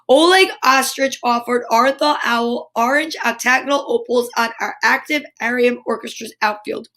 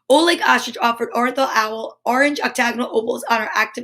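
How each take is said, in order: First: It is read slowly, word by word. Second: It is read quickly, like a tongue twister.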